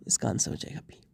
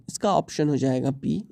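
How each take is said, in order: First: Low, near-whispered aside; hushed repeat. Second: Said in the usual way. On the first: Real, not acted. Teacher repeats the answer to himself, hushed. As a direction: drop it almost to a whisper.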